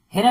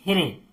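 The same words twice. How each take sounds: First: "हिरा" ending in an open aa; "हिरा" with aa in place of e; wrong final vowel. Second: "हिरे" ending in an e sound, re; "हिरे" with a closing e vowel; correct final vowel. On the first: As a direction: end "हिरा" on ra, the misreading. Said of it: "हिरा नहीं पढ़ेंगे". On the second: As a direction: end "हिरे" on re, not ra. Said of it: "तो हिरे पढ़ेंगे इसको". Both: Shown as a demonstration.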